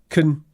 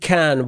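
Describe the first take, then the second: First: It is said with a short, reduced vowel. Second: It is said with a full, clear vowel.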